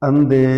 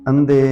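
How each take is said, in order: No difference in how they are said.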